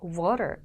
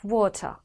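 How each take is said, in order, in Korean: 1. 미국식 억양으로 발음됩니다. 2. 영국식 억양으로 발음됩니다. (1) "미국식으로 들립니다" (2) "좀 전에 저는 영국식으로 읽어드렸어요"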